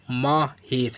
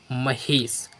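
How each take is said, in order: First: The first vowel is long, like 'aa'. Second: The first vowel is short, like 'a'. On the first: The speaker calls it wrong. "लेकिन यह भी गलत है।" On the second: The speaker calls it right. "क्या पढ़ेंगे?"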